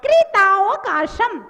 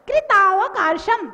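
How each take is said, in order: The two takes are said the same way.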